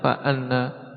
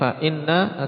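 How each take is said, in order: First: The hamzah is said with an a vowel. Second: The hamzah is said with an i vowel.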